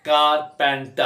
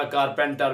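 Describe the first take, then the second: First: कारपेंटर split into three separate beats; teacher's broken-up कारपेंटर; syllable by syllable. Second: Said in the usual way. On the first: Shown as a demonstration. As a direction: break कारपेंटर after each syllable. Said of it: "इसको इकट्ठा पढ़े". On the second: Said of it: "बगैर रुके पढ़ा".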